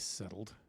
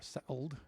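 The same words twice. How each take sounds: First: The word is said in the usual way. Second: The word is said with an imitated pronunciation.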